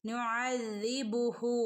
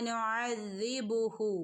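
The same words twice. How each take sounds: No difference in how they are said.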